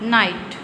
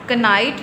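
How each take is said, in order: First: No k sound is heard before the n. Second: A k sound is heard before the n. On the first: The speaker calls it right. "इसमें के silent है" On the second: The speaker calls it wrong. "कनाइट नहीं बोलेंगे"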